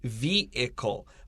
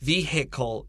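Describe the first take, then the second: First: The middle H sound is silent. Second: The middle H sound is clearly pronounced. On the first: "I don't say the H in this word" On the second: "but some people do. Vehicle is also acceptable pronunciation"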